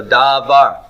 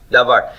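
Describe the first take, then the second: First: "davar" said slowly, each syllable held long and apart; both vowels drawn out. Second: Said in the usual way. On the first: Shown as a demonstration. Teacher showing students the two Kametz vowels, drawn out. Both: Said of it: "they're both Kametz".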